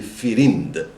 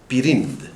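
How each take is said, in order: First: The word begins with an F fricative. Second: The word begins with a P stop. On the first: This is the form borrowed into Arabic. "it spiritized it. It made it a nef, so they say firind" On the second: This is the original Persian form. "This is a Persian, Persian word for sword"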